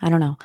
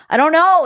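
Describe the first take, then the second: First: Said in the usual way. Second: Higher and louder, throwing up her hands; exasperated outburst. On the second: Real, not acted. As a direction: blurt it out in disbelief. Repeats phrase, second time exasperated.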